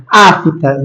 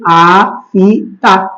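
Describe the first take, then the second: First: Said in the usual way. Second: "Afta" broken into a, fi, ta with the F standing alone; wrong syllable split. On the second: Shown as a demonstration. Teacher showing a forbidden division, "Afta" chopped into a, f, ta. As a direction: say "Afta" slowly in three separate pieces, a-f-ta. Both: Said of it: "Você não pode separar afta desse jeito".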